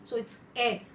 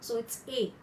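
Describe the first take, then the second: First: A said as the "eh" in "egg"; grave A sound. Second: A said as in "cake"; acute A sound. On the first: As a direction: say A like French è, as in "egg". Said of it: "hear the sound in egg". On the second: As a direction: say A like French é, as in "cake". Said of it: "more of an open A as cake". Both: Shown as a demonstration.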